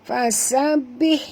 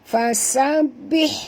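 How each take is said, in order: Both takes have the same delivery.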